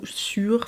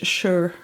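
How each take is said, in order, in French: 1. Le mot est prononcé à la française. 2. Le mot est prononcé à l'anglaise. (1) "si je vous le prononce en français" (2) "on le prononce comme il faut"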